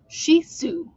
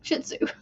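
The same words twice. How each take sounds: First: The breed name is said the formal dictionary way. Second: The breed name is said the casual everyday way. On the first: This is how the word is officially pronounced. "it's actually Shih Tzu" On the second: This is how people commonly say it. "We say Shih Tzu"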